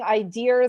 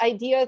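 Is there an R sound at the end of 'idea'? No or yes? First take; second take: yes; no. First: The word is said with an R sound. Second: The word is said without an R sound. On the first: The speaker calls it wrong. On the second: The speaker calls it right.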